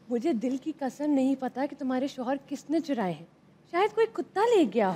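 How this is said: It is said in a very romantic tone.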